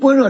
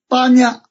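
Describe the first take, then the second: First: It is pronounced with two syllables, bo-re. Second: It is pronounced with three syllables, ba-ni-ya. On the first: This is the modern Chinese reading. "我们是跟般若差太多了" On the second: This is the original Sanskrit or ancient reading. "梵文的读音怎么读……巴尼亚就这么读的"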